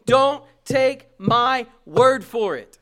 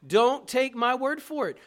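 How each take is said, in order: First: DON'T TAKE MY WORD, each word hit hard, loud and slow; very slow, booming, deliberate emphasis; emphatic catchphrase. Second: "Don't take my word for it" said firmly in one flowing phrase; loud, connected delivery of "Don't take my word for it"; emphatic restatement. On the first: Retold or imitated. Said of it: "you've heard me say". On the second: Shown as a demonstration. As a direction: raise the volume, keep the words moving. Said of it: "hear it now".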